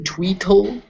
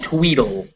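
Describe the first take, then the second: First: The middle consonant is a clear T sound. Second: The middle consonant is a soft D sound. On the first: "it's written Tweetle" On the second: "it's actually pronounced Tweedle"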